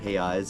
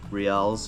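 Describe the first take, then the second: First: It is said in the Portuguese way, 'reais'. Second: It is said in an anglicized way, 'reals'.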